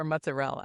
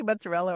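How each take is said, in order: First: "mozzarella" as mutza-RELL; Staten Island pronunciation. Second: "mozzarella" with the last vowel sounded; full-ending mozzarella. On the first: Host asks the chef which way, Staten Island "mozzarella" as mutza-RELL. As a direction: drop the final vowel of "mozzarella", mutza-RELL. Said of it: "I grew up in Staten Island". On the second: Host asks the chef which way she says it, "mozzarella" with its ending. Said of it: "Do you say mozzarella or mozzarella". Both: Shown as a demonstration.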